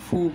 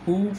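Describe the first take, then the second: First: The syllable starts with an f sound. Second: The syllable starts with an h sound. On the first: The speaker calls it right. "ফুটাই উচ্চারণ করা ভালো" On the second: The speaker calls it wrong. "এটা অনেকে হু হু পড়ে"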